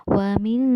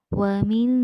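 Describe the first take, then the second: Both takes have the same delivery.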